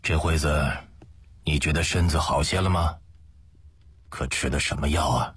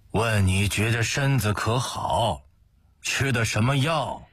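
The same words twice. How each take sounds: First: Lightly voiced father's measured inquiry; a mild, effortful paternal question, pitch kept down; forced briskness. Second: Father's question pitched up to get through; insistent repeat. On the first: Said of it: "勉强打起精神". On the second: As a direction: repeat it higher for an inattentive listener. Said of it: "又重复了一遍". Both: A narrator's reading.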